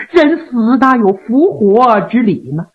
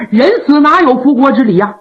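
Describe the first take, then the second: First: Measured, pained rhetorical question; reproachful princess. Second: Brisk, indignant rhetorical question; grumbling disbelief; secret cursing. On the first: Princess reproaches the joking official. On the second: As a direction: scoff at the false promise with a falling end. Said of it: "一边暗骂老仙儿". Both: A narrator's reading.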